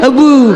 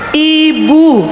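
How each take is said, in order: First: The first vowel is an e sound. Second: The first vowel is a clear i sound. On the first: The speaker calls it wrong. "jangan bilang teh, ebu" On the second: The speaker calls it right. "bukan ibu tapi ebu"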